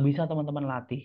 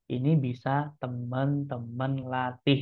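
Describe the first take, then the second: First: Said in the usual way. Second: Slow, deliberate word-by-word delivery; slow right down to stress the point; slowed for emphasis. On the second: Shown as a demonstration. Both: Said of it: "saya juga memperlambat temponya".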